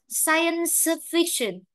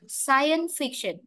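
First: "science fiction" with the s kept before f; every ending sounded. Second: "science fiction" run together as "scien-fiction"; linked, dropped ending. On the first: Teacher showing the difficult way, "science fiction" with s fully sounded. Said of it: "là khó". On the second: Teacher showing students linking, "science fiction" without the middle s. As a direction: drop the final s of "science" into "fiction". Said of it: "chúng ta được bỏ lụt nó đi". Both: Shown as a demonstration.

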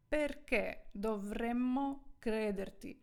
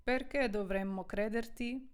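First: Slow, spaced-out Italian question for learners; careful, slowed-down teacher's delivery; slow model reading. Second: Said in the usual way. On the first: Shown as a demonstration. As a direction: stretch the question out word by word. Model sentence, first slow, then natural.

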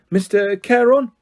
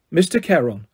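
First: "Mister Charon" drawn out slowly, pitched up; prompting. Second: Said in the usual way. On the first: A narrator's reading. Guard prompting a boy, "Mister Charon" slow and expectant. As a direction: lead the learner through "Mister Charon", slowly.

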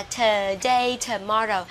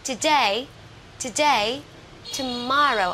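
First: "today, tomorrow" with a long, heavy "tuh"; mispronunciation. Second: "today, tomorrow" with a very short first vowel; short schwa. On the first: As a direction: drag the first syllable of "today, tomorrow" wrongly. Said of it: "các bạn không đọc là". (đọc sai "today, tomorrow", kéo dài âm "thơ") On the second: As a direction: clip "to" and punch the second syllable in "today, tomorrow". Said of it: "Chữ ơ này đọc rất là ngắn". (đọc "today, tomorrow" với âm ơ rất ngắn) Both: Shown as a demonstration.

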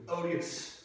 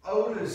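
First: "odious" said in place of odors, ODE-ee-us; mispronounced word. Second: "Odors" said right, two syllables, stressed and loud; corrected word. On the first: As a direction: misread "odious" with three syllables. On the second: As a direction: land "Odors" clearly as the correction. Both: Acted. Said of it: "Odors, odors".

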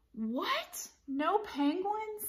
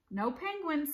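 First: High, incredulous storybook voice; stunned little cat's question; dismayed disbelief. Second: Teacher's settled storybook reply; matter-of-fact teacher voice; firm confirmation. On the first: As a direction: ask it in high-pitched disbelief. Splat hears pool is closed. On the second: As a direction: confirm it as a statement, less high. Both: A narrator's reading.

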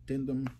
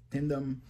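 The two takes are said the same way.

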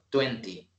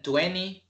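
First: "twenty" said as twen-tee, second t sounded; twenty with full t. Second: "twenty" said as twenny, second t dropped; twenty with silent t. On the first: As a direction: sound both t's in "twenty". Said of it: "otros twenty". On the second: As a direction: drop the t after the n in "twenty". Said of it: "Algunos dicen twenty". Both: Shown as a demonstration.

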